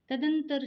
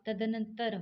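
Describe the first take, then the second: First: It is said as tad-an-tar, without the 'na'. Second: It is said as tad-an-an-tar, with the 'na'. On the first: The speaker calls it wrong. "तदंतर शब्द नहीं होगा" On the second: The speaker calls it right. "तदनंतर होगा"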